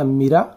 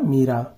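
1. पहला स्वर छोटा है। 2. पहला स्वर बड़ा है। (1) "म में छोटी की मात्रा वाला मीरा" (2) "म में बड़ी की मात्रा मीरा"

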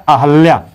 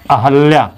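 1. 'h' के बाद का स्वर 'a' है। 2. 'h' के बाद का स्वर 'a' है।

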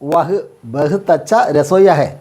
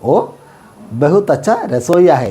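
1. ആദ്യത്തെ വാക്ക് 'vah' എന്ന് പൂർണ്ണമായി ഉച്ചരിക്കുന്നു. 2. ആദ്യത്തെ വാക്ക് ചെറിയ 'o' ആയി ചുരുങ്ങുന്നു.

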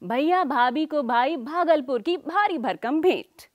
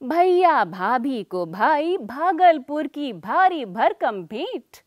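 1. वाक्य तेज़ बोला गया है। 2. वाक्य सामान्य गति से बोला गया है।

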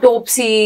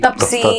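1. पहला स्वर 'o' की ध्वनि है। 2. पहला स्वर छोटी 'a' है। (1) "प्रोनाउंस भी गलत करते हैं" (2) "प्रोनाउंस भी गलत करते हैं"

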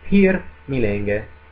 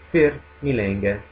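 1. La prima parola inizia con una p aspirata e soffiata. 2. La prima parola inizia con un suono f. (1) "la p è una vera e propria consonante, una consonante aspirata" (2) "tendono a semplificarlo in F"

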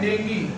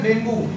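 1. शब्द 'ee' ध्वनि से खत्म होता है। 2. शब्द 'oo' ध्वनि से खत्म होता है। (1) "इसका सही प्रोनाउंसिएशन है डेंगी" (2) "उसको लोग बोलते हैं डेंगू"

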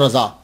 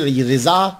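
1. पहला स्वर 'about' के 'a' जैसा बोला जाता है। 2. पहला स्वर 'sit' के 'i' जैसा बोला जाता है। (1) "मैं दोनों को प्रोनाउंस करता हूं" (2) "रिजा और रजा ये दोनों पढ़े जाते हैं"

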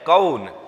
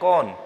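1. स्वर पूरी 'au' ध्वनि की तरह फिसलता है। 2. स्वर एक सादा, सपाट 'o' ध्वनि है। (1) "इसका राइट प्रोनाउंसिएशन होता है कौन" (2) "कई बार हम बोलते हैं कौन तो वो करेक्ट नहीं है"

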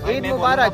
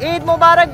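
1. यह सामान्य, धीमी आवाज़ में कहा जाता है। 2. इसे बहुत ज़ोर से चिल्लाकर कहा जाता है। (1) "ऐसे नहीं बोलना" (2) "इतनी आवाज़ में चिल्लाना है कि सब सुन ले"

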